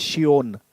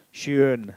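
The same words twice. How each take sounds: First: "schön" said as shee-on, with a glide before the vowel; "schön" with a y-glide, the beginner's error; wrong beginner pronunciation. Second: "Schön" with a single rounded umlaut vowel and no glide; the right "Schön", one pure vowel; correct German pronunciation. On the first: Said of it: "Funny faces". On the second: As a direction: model "Schön" cleanly, lips rounded on the ö. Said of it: "Sound is E as in sure". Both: Shown as a demonstration.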